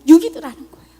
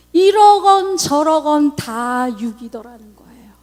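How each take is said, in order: First: Loud stress on 육이더라는; 육이더라는 said loud and firm; emphatic repeat. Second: Slow, breathy whisper stressing 이러건; slow whisper leaning on 이러건; slow hushed realization. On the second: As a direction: whisper it slowly, as a confession. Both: Real, not acted. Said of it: "realization repeated".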